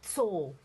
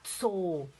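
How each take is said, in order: First: The word starts with a tight ts cluster. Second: The word starts with a tight ts cluster.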